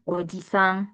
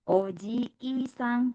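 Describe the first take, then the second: First: The 'i' vowel is short. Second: The 'i' vowel is long. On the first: It means uncle. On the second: It means grandfather.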